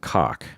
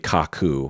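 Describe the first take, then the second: First: The name ends in a consonant sound. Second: The name ends in a vowel sound. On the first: This is the shortened everyday form. "So in Japan, I'm cock" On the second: This is the official form. "it's actually officially kaku because uh, it- they frequently can't end a word on a va- on a, uh, consonant"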